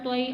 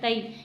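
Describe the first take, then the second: First: The t is heavy and deep, made far back. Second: The t is light and plain, made at the teeth. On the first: The speaker calls it right. "तो या जबर तोई" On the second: The speaker calls it wrong. "अक्सर लोग ता करके पढ़ते हैं"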